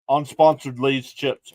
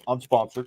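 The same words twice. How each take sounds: First: Slow, punched "Unsponsored" with weight; stress on unsponsored. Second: Said in the usual way. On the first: Shown as a demonstration. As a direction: drag out "Unsponsored" for a wry joke. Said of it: "Unsponsored, of course". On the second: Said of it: "of course".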